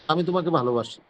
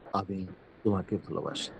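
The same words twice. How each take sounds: First: The voice is pitched high, not low. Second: The voice is pitched low and soft.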